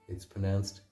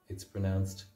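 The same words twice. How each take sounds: Both takes have the same delivery.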